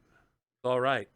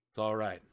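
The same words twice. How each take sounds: First: Slow soothing. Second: Said in the usual way. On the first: Acted. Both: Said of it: "And he's just like".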